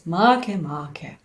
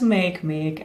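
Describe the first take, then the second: First: Each half does not sound like English make. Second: Each half sounds like the English word make. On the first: The speaker calls it right. "It should be pronounced as Makemake" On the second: The speaker calls it wrong. "It's not make-make as it would be convenient for us"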